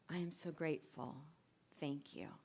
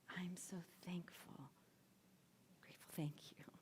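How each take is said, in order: First: It is spoken in a normal voice. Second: It is spoken in a whisper.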